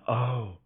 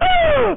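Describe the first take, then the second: First: Soft, low little oh; a tiny hushed reaction; barely voiced surprise; small quiet oh. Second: Very high, loud, slow drawn-out oh; mocking his loud oh; exaggerated gasping oh. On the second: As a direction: stretch the oh like a scandalized gasp. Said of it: "like that".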